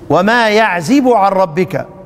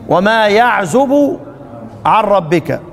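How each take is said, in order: First: The verb has an i vowel after z. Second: The verb has a u vowel after z.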